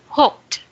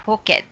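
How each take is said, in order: First: It is said with one syllable. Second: It is said with two syllables. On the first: The speaker calls it right. "this is one syllable only" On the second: The speaker calls it wrong. "Not hooked"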